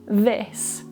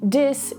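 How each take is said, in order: First: The word begins with a voiced th sound. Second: The word begins with a d sound. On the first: The speaker calls it right. "instead of this" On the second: The speaker calls it wrong. "replace it with a d sound and end up saying dis"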